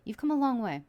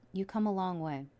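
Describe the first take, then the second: First: Louder and higher on "You've come a long way"; emphatic, louder. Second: Said in the usual way. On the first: Acted. Reader affirming the viewer's journey, emphatic. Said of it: "repeated line, first emphatic". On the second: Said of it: "repeated line, second plain".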